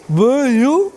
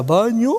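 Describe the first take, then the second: First: Dysarthric patient. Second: Said in the usual way. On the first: Retold or imitated. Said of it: "para el paciente disártrico decirte". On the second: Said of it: "Que te diga".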